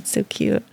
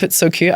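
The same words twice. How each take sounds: First: Soft real whisper, much softer. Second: Said in the usual way. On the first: Real, not acted. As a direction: breathe it out fondly under the breath. Fond repeat dropped to whisper.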